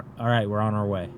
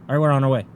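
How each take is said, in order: First: The line is said slowly, without rushing. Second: The line is said fast, rushed through. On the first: The speaker calls it right. "Be like" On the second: The speaker calls it wrong. "Not like"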